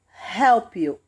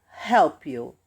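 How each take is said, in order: The two takes are said the same way.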